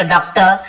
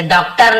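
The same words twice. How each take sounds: First: "डॉक्टर" ending in "tuh", no r; silent final r. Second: "डॉक्टर" with a full final r; final r pronounced. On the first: Teacher correcting for students, "डॉक्टर" with final r silent. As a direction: drop the last r of "डॉक्टर". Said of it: "र थोड़ा silent होता है". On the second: Teacher showing what not to say, "डॉक्टर" with final r sounded. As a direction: end "डॉक्टर" on a clearly sounded r. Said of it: "नहीं बोलते". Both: Shown as a demonstration.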